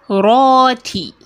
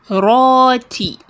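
The two takes are said the same way.

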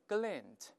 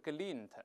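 First: The vowel sounds like an 'a' sound. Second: The vowel sounds like an 'i' sound. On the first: The speaker calls it right. "而前面发a n，而不是in，所以是glint" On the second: The speaker calls it wrong. "而不是glint"

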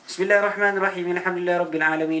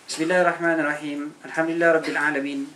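First: It flows on continuously in one breath. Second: It is broken up by stops between phrases. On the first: The speaker calls it right. "kalau nak sambung, sambung lah kan" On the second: The speaker calls it wrong. "Dia berhenti-henti, tapi dia tak tahu nampak"

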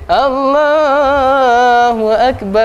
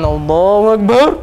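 First: It is said in a melodious, pleasant voice. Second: It is said in a harsh, jarring voice.

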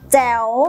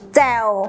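First: The syllable is said on a rising tone. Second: The syllable is said on a low tone. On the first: "มีเสียงวรรณยุกต์จัตวา" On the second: "มีเสียงวรรณยุกต์เอก"

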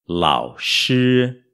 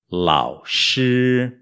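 The two takes are said the same way.

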